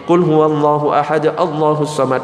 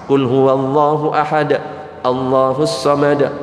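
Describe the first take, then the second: First: It runs on after 'ahad' without pause or link. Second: There is a short breath pause after 'ahad'. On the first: The speaker calls it wrong. "salah cara bacanya" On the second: The speaker calls it right. "berhentinya agak jeda dikit, nafas"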